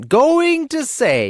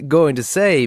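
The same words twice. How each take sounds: First: Drawn-out, very high sneering repeat; wife parroting her husband in mockery; mocking echo. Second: Said in the usual way. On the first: A narrator's reading. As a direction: mimic him with scorn. Wife mocks his words.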